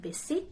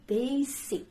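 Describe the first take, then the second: First: "basic" with a short first vowel, BESS-ik; mispronunciation. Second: "basic" with a long AY, BAY-sik; correct pronunciation. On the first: Teacher shows what not to say, "basic" mispronounced BESS-ik. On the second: Teacher gives learners the right word, correct "basic" as BAY-sik. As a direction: stretch the first vowel of "basic" to ay. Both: Shown as a demonstration. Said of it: "It's not basic".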